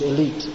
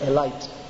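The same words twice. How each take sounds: First: It is pronounced the standard English way. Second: It is pronounced the Indian English way. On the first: "Actually the pronunciation is elite" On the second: "but in India they say elite"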